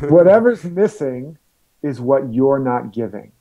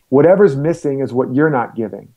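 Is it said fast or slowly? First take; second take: slowly; fast. First: It is said slowly and deliberately. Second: It is said at a normal, quicker pace.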